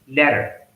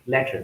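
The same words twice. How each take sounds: First: The final R sound is clearly audible. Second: The final R sound is silent. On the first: "But in American English, that is" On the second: "In British English, it is uh, silent"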